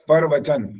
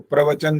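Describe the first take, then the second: First: A vowel separates p and r at the start. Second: The word starts with a tight pr cluster. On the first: It means someone else's word. The speaker calls it wrong. "तो ऐसा लगता है परवचन, दूसरे का वचन" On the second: It means a discourse given from a stage. The speaker calls it right. "इसको प्रवचन बोलना होता है। प्र बोलना होता है"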